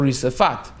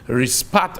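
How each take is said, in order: First: A short vowel is heard between the s and p. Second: No vowel is heard between the s and p. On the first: It means the floor or pavement. The speaker calls it right. "Risafat means the floor of, the, the pavement of" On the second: It means a hot coal. The speaker calls it wrong. "many people will read rispat, but rispat means a hot coal"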